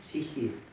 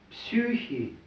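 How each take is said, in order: First: The first vowel sounds like a plain 'i'. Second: The first vowel sounds like a rounded 'ü'.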